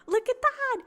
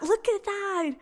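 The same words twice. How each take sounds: First: More excited. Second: Delighted look at that. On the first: Repeats, even more thrilled. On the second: Marvelling at the card. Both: Real, not acted.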